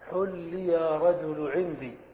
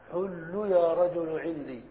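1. تنتهي الكلمة الأولى بكسرة. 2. تنتهي الكلمة الأولى بضمة. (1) "فتحرك آخره بالكسر" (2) "فحل حاؤه مضمومة، فتتبع"

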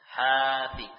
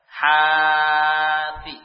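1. Vokal pertama dipanjangkan tepat dua ketukan. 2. Vokal pertama dipanjangkan lebih dari dua ketukan. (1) "Kita baca dengan dua harokat" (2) "Seandainya kita membaca dengan ukuran lebih dari itu"

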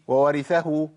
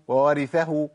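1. يندمج صوتا الواو في صوت واحد. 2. يندمج صوتا الواو في صوت واحد.

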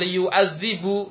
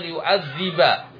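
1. Kata itu berakhir dengan vokal 'u'. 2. Kata itu berakhir dengan vokal 'a'. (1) "Tidak dibaca liyu'adzibu" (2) "namun dibaca liyu'adziba"

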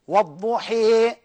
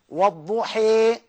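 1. الحركة النهائية تميل بشدة نحو 'ee'. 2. الحركة النهائية تميل بشدة نحو 'ee'.

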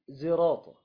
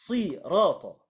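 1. الحرف الأول مشوب بالزاي. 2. الحرف الأول صاد مفخمة. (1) "وبالإشمام" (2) "بالصاد"

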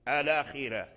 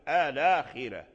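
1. تبدأ الكلمة بالحركة 'a' قبل 'l'. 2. تبدأ الكلمة بالحركة 'a' قبل 'l'.

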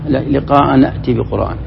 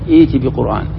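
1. العبارة متصلة بالكلمة السابقة. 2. تبدأ العبارة من جديد بعد الوقف. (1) "وإذا وصلت تقول" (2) "إذا وقفت على لا يرجون لقاءنا تنطقها هكذا"

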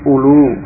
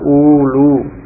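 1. Vokal pertama dibaca pendek. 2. Vokal pertama dibaca panjang. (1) "U-nya pendek yang awal" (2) "bukan ulu"

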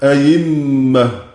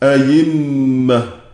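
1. الهمزة الثانية تُبدل بصوت الياء. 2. الهمزة الثانية تُبدل بصوت الياء.

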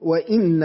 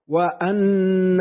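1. كسرة على الهمزة، ونون مشددة. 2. فتحة على الهمزة، ونون مشددة. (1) "كسر الهمزة بعدها نون مشددة" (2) "فتح الهمزة وبعدها نون مشددة"

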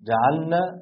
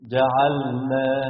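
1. اللام مدغمة في النون التي بعدها. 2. اللام تُنطق واضحة قبل النون. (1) "بيقول" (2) "بدل"

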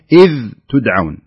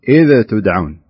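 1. يُنطق صوت الذال ممدودًا دون أي قلقلة. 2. ينتهي صوت الذال بقلقلة خفيفة زائدة. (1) "الصحيح" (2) "أنك قلقلت في الذال، يعني بلغت في إظهار الذال فقلت"

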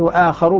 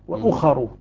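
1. الحركة الأولى طويلة ومفتوحة. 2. الحركة الأولى قصيرة ومضمومة. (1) "وآخر بالمد والفتح" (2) "بضم الهمزة مع القصر"

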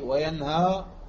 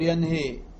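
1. تنتهي الكلمة بحرف 'a' طويل. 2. تنتهي الكلمة بحرف 'i' طويل. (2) "ولا تقول ينهي"

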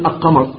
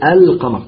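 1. تُدغم اللام في صوت Q الذي بعدها. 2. تُنطق اللام بوضوح قبل Q. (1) "لا تقول القمر، هذا يمتنع لغة وقراءة" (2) "تقول القمر"

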